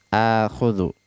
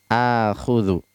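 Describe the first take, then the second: The two takes are said the same way.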